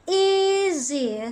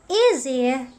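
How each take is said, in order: First: The vowel is lengthened and drawn out. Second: The word is said at normal, short length. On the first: The word carries an implied meaning. "referring to another one, the implied meaning" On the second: The word has its literal meaning. "that is the denotative one, the literal one"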